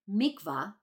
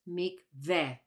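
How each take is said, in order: First: It uses the Ashkenazi Hebrew pronunciation. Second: It uses the Sephardic Hebrew pronunciation.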